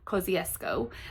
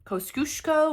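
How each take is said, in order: First: It is said the Australian way. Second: It is said the non-Australian way. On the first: The speaker calls it right. "the Australian pronunciation" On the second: The speaker calls it wrong. "the C C pronunciation on the app, like they say"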